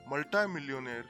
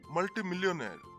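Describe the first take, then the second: First: The prefix is said the American way. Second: The prefix is said the British way. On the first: "these words are pronounced in American format as" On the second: "The British enunciate these as anti and multi"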